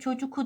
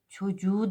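First: The middle consonant is a hard k. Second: The middle consonant is a soft g. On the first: The speaker calls it wrong. "çocuku demeyiz" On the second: The speaker calls it right. "Çocuğu deriz"

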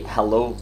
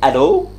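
First: The word begins with an h sound. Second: The word begins with a vowel, no h. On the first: The speaker calls it wrong. "We don't say hello like in English" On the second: The speaker calls it right. "Like A-L-O"

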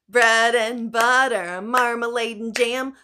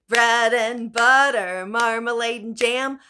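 The two takes are said the same way.

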